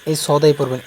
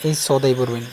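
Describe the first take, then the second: No difference in how they are said.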